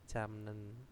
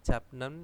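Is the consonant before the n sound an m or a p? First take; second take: m; p. First: An m sound is said before the n. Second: A p sound is said before the n. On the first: The speaker calls it right. "akhirnya menjadi jamnen" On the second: The speaker calls it wrong. "kalau baca seperti ini japnen itu kan e, keserimpet ya lidahnya"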